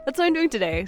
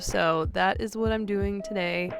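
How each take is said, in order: First: It sounds cheerful and upbeat. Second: It sounds sad and low.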